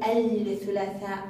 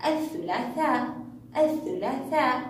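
First: الثلاثاء said wrongly with the L voiced; wrongly sounded lam. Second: الثلاثاء with the L dropped and th doubled; silent lam. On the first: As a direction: say الثلاثاء as "al-thulaathaa". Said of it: "لا نقول الثلاثاء". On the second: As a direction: say الثلاثاء as "ath-thulaathaa". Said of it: "لا يخرج صوت اللام". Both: Shown as a demonstration.

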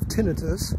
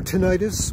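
First: "tinnitus" stressed on the first syllable; "tinnitus" pronounced TIN-ih-tus. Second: "tinnitus" stressed on the middle syllable; "tinnitus" pronounced tih-NYE-tus; tinnitus as ti-NIGHT-us. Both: Shown as a demonstration. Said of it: "however you prefer to pronounce it".

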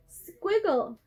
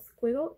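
First: Squiggle said higher and louder, falling to a firm end; teacher naming a shape. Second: Squiggle said as a question, rising at the end; asking tune. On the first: Teacher presents a new shape word to children, emphatic. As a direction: announce squiggle brightly to the class. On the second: Teacher asks children if they know the word, rising question. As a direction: check if the kids know squiggle. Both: Shown as a demonstration. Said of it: "Do you know what it's called".

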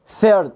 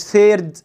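First: "ثيرد" with tongue-tip TH and r-coloured vowel; correct TH and R. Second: "ثيرد" as "seyrd", S for TH and long vowel; mispronounced TH. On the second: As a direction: say "ثيرد" with an S and a stretched "ay". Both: Shown as a demonstration. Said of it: "مش ثيرد".

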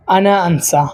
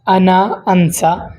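First: Said in the usual way. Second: আনা আনসা drawn out slowly, each syllable stretched; slow teacher's demo of আনা আনসা; slow model pronunciation. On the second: Shown as a demonstration. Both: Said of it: "তো প্রথম শব্দ হচ্ছে আনসা".

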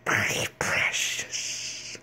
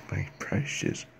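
First: Long, drawn-out creepy whisper; creature impression. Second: Quick, hushed creature whisper; creature impression. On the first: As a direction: whisper it slowly, hissing the ending. Creature impression, then repeated. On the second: Second take of creature line.

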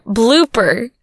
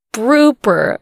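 First: Said in the usual way. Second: "blooper" said as "prooper", r for the l; blooper slurred. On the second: Shown as a demonstration. Fumbling the word mid-take, "blooper" as "prooper". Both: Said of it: "If you do a blooper reel".

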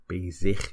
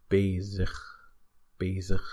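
First: Bezig with a full "ikh" on the -ig; exaggerated ending. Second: Bezig with the -ig weakened to "ukh"; reduced ending. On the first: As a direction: overpronounce bezig as "BAY-ZIKH". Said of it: "a bit of an exaggeration". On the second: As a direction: say bezig as "BAY-zukh". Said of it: "basically turn it into ugh". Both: Shown as a demonstration.

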